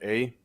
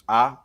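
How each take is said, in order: First: The letter is said with the English vowel. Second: The letter is said with the Spanish vowel. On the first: "not A" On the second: "In Spanish, it's pronounced A"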